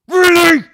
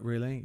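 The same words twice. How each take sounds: First: It is said in an angry, forceful way. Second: It is said in a calm, quiet way. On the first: "rather than go" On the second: "I'd like totally play it completely calm"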